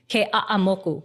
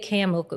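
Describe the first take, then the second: First: Every syllable is said, each one separately. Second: One syllable is dropped, making the name shorter. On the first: The speaker calls it right. "every syllable has to be pronounced" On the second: The speaker calls it wrong. "you can't say Ke'amoku"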